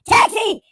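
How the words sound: It is said in a put-on character voice.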